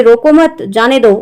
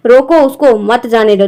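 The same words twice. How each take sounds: First: रोको मत joined, a break, then जाने दो; pause after मत. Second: रोको set apart, then उसको मत जाने दो; pause after रोको. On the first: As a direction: keep रोको मत together and pause before जाने दो. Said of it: "वही चीज़ यहाँ पे है". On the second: Teacher repeating the upper example for students, pause after रोको. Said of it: "ऊपर वाले में". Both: Shown as a demonstration.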